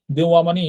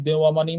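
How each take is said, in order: Both takes have the same delivery.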